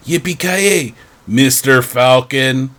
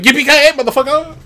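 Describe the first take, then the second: First: It is said flatly, without much energy. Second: It is said with loud, energetic gusto.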